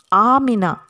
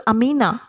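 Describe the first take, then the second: First: "Amina" with a long, stressed opening AA; correct pronunciation of Amina. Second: "Amina" with a short, unstressed first A; wrong pronunciation of Amina. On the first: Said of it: "we should pronounce A". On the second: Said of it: "we should not pronounce Amina". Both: Shown as a demonstration.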